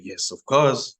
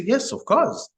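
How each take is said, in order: First: Said in the usual way. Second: Much higher, eager yes of course; eager villager. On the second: Retold or imitated. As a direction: answer brightly up high, glad to help. Villager readily offers mustard seeds.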